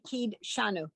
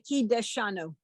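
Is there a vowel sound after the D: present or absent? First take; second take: absent; present. First: No vowel is sounded after the D. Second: A short vowel is sounded after the D. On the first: "it's better just to say" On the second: "some people do say"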